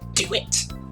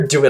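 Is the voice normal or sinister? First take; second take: sinister; normal. First: It is said in a sinister voice. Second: It is said in a normal voice.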